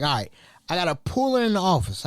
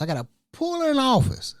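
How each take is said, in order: First: Said in the usual way. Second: "I gotta pull her in the office" said higher and faster, stressing "her"; firmer repeat. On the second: Retold or imitated.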